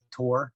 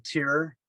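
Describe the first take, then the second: First: Tour as one rounded syllable, "tor"; standard "tour". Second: Tour drawn out as two syllables, "TEER-er"; Californian "tour". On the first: Shown as a demonstration. Showing how tour is expected to sound, as "tor". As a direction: say tour with an "or" vowel. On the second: Retold or imitated. Asking Californian riders about their tour, said "teer-er". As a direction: say tour with a thin "ee" vowel, like "teer". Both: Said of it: "instead of tour".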